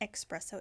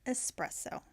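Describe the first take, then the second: First: The word begins with an 'ex' sound. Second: The word begins with an 'es' sound. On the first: The speaker calls it wrong. "It's not espresso" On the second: The speaker calls it right. "it's espresso. I know proper pronunciation"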